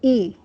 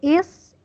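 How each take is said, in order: First: The word is said without the final s sound. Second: The word ends with a clear s sound. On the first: The speaker calls it wrong. "you say e" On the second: The speaker calls it right. "instead of saying is"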